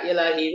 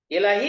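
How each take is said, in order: First: The word ends with a u vowel. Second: The word ends with an i vowel. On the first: The speaker calls it wrong. "Tidak boleh dibaca" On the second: The speaker calls it right. "ini kasrah"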